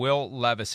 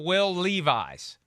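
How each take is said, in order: First: The surname is not said like the jeans brand. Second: The surname is said like the jeans brand.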